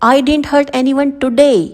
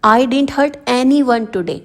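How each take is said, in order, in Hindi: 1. शब्द today पर मुख्य बलाघात है। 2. शब्द anyone पर मुख्य बलाघात है। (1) "तो यहाँ पर ये टुडे वर्ड" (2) "अब इसमें एनी वन पर प्रेशर डाला गया है।"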